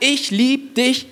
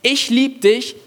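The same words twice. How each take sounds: First: Slow and high, tender and drawn out; tenderly, like a loving father; God's tender love. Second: "lieb" pitched high in a sing-song mocking tone; mock conditional love. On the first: Acted. God to every listener, slow and tender. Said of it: "Gott sagt". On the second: Preacher to the church, mocking conditional love. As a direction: parody a demanding lover. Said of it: "Nicht, Ich lieb dich, wenn".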